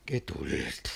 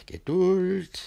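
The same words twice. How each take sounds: First: Low soft Geduld; soothing. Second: Geduld higher, tense; strained patience. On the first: Master calming himself, low soft Geduld. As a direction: murmur Geduld to yourself. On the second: Master urging himself to patience, higher strained Geduld. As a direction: force out Geduld through rising anger. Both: Acted.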